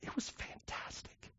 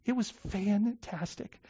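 First: Slow, near-tearless whisper, fighting tears; choked whisper. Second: Slow, soft and emotional, softer than usual; voiced through tears. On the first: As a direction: breathe it out, barely holding back tears. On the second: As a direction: let the voice come back, still moved. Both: Real, not acted. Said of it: "I'll try not to cry".

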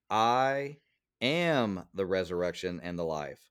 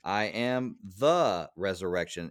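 First: "I" set apart, raised, then a pause; stress on I. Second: "I am the resurrection" spoken slowly, weight moved off "I"; slow it down and lean on a different word; slow stressed reading. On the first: Pastor showing listeners a meditation method, stress on "I". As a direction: lift and hold "I" before the rest. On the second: Pastor demonstrating re-emphasis of the verse, slow stressed reading. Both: Shown as a demonstration. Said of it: "emphasize it differently".

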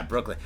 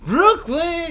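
First: Said in the usual way. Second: Brooklyn called out high and loud; shouted Brooklyn. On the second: Shown as a demonstration. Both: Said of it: "there we go".

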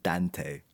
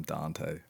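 First: Dante said softly as DAN-tay; short-A Dante. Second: Dante said low and soft as DAHN-tay; broad-A Dante. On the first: Host tries the co-host's version, short-A Dante. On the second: Host gives their own way with the name, broad-A Dante. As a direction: say Dante with a long AH. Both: Shown as a demonstration. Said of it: "I call him Dante".

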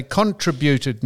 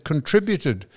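First: "contributed" as CON-tri-byoo-ted; stressed on first syllable. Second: Said in the usual way. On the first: Shown as a demonstration. Co-host lists how some people say it, "contributed" as CON-tributed. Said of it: "some people say contributed instead of". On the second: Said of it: "instead of contributed".

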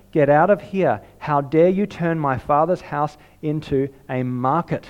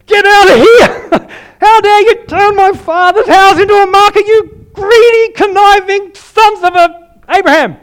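First: Said in the usual way. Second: Furious, roaring high and loud with a laugh breaking through; violent furious shout. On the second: Acted. Preacher voicing Jesus at the money changers, furious roaring shout. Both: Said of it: "But probably more violently".

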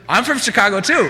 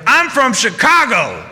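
First: Higher, laughing through the words; amused, can't keep a straight face; laughing reply. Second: Slow, high, loud proud declaration; pushy customer. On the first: Staff answer the customer's claim. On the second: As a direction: lay it down like a trump card. Angry customer plays his card. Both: Retold or imitated.

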